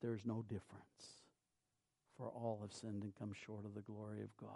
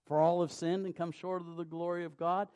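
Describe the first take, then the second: First: Fast breathy whisper, much softer; hushed whisper of scripture. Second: Said in the usual way. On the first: Acted. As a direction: breathe the verse out as a hushed secret. Opening scripture line, whispered.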